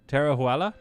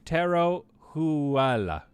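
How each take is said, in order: First: "Taro Huala?" asked with a rising, doubtful tune; "Taro Huala" tried again, questioning; unsure name try. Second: Slow, careful "Taro Huala"; "Taro Huala" spelled out carefully, like a first attempt; careful name try. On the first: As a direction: check yourself, lift the end of "Taro Huala". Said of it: "Did I do that right?". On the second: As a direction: sound out "Taro Huala" slowly, each syllable. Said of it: "educate me how to say your name". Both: Shown as a demonstration.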